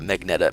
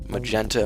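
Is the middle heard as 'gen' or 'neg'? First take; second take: neg; gen. First: The n sound comes before the g sound. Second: The g sound comes before the n sound. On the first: The speaker calls it wrong. "It's not Magneta" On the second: The speaker calls it right. "Magenta is how you really pronounce it"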